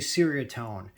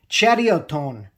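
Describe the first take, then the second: First: It starts with an s sound, American style. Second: It starts with a ch sound, Malay style.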